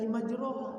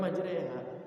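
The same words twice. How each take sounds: First: MAJROHA with a full, untilted o-a vowel; untaught reading. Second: MAJREHA with the vowel tilted to e; tilted imalah reading. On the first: Teacher imitating an untaught reader, majroha said as written. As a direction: say majroha as spelt, without imalah. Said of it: "kalau belum pernah belajar sama sekali". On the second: Teacher correcting to the imalah reading, majreha with tilted vowel. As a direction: tilt the middle vowel to e in majreha. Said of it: "Bacaan miring". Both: Shown as a demonstration.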